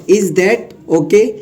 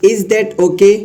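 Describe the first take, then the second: First: "Is that okay" spoken very slowly, each word drawn out for learners; slow teaching read. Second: Said in the usual way. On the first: Shown as a demonstration. Teacher slowly dictating the phrase to students. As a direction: spell it out slowly so students can copy it.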